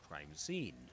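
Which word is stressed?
scene. The stress falls on the second word. It is said as a phrase. The speaker calls it wrong. "not crime scene"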